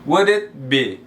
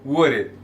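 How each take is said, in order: First: "would it be" linked, clear d into "it"; "would it be" with a silent L; model pronunciation. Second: "would it" with the d flapped like an r. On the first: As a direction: say "would it" as "wud-it". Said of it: "você só pronuncia o U". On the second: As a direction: say "would it" like "wurit". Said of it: "pronunciar esse D aqui com som de R". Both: Shown as a demonstration.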